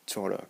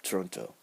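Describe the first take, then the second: First: "Toronto" with the second t dropped, run together like tuh-RON-uh; a smooth "Toronto" with no middle t, the Canadian way; casual Canadian "Toronto", t swallowed. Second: "Toronto" with the second t pronounced clearly, tor-ON-toh; "Toronto" spelled out in the sound, t fully voiced. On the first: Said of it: "I said Toronto because it sounds natural, more like smooth". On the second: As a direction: say "Toronto" carefully with a crisp middle t. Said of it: "Canadians don't pronounce T, or Canadians do pronounce T". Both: Shown as a demonstration.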